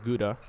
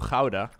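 First: The word is said the common English way. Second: The word is said the local Dutch way. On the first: "which a lot of you would pronounce as Gouda" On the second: "I do live pretty close to Gouda"

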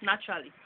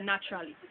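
No difference in how they are said.

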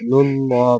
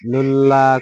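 First: The L sound is heavy and full. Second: The L sound is light and thin. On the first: The speaker calls it right. "লুল্লাহ পুর হবে" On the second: The speaker calls it wrong. "লুল্লাহ করলে কিন্তু হবে না"

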